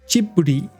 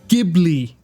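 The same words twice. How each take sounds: First: It is said with the Japanese studio pronunciation. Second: It is said with the original Italian pronunciation. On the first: This is how the studio says it. "when they made the Japanese sound. So they pronounce it Ghibli" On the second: This is the name of the plane. "named after a plane that is pronounced Ghibli"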